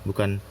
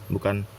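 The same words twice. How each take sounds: Both takes have the same delivery.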